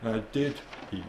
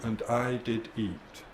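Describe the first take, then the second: First: The word 'did' is strongly stressed. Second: The word 'did' is left unstressed.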